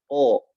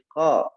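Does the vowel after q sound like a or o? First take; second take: o; a. First: The vowel is rounded, sounding like o. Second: The vowel is open and unrounded, like a. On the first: The speaker calls it wrong. "Jangan membulatkan bibir, bukan o" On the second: The speaker calls it right. "tapi qa"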